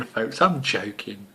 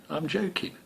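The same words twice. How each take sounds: First: Said in the usual way. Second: A sly whispered aside, softer. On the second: Acted. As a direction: whisper it like a secret. Whispered after the rude joke.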